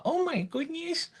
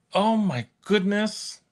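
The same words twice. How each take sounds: First: Hammed-up grandma, higher and softer. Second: A hint of a sweet grandma. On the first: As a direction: play up the little old lady. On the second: Real, not acted. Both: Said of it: "why do I sound like a grandma?".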